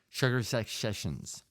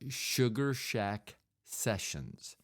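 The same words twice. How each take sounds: First: It is said with the sounds slurred together. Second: It is said slowly and clearly. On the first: "there's just a lot of sloshing going around" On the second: "I say that slowly because that's not easy to say"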